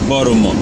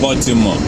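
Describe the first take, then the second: First: The T sound is left out. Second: The T sound is clearly pronounced. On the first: This is how local Americans say the name. The speaker calls it right. "The T is silent. You don't pronounce that T" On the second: This is how a newcomer says the name. The speaker calls it wrong. "It's not Baltimore"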